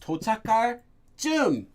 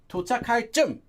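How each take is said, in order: First: The last word is drawn out longer. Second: The last word is short and clipped. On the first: The speaker calls it right. "it's a longer sound" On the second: The speaker calls it wrong. "It's not"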